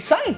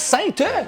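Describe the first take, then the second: First: The word ends on a nasal vowel, no t. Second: The word ends with a clear t sound. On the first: The speaker calls it right. "c'est Saint" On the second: The speaker calls it wrong. "C'est pas Sainte"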